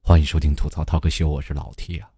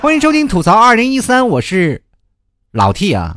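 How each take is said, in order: First: The voice is calm and relaxed. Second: The voice is hyped up and energetic.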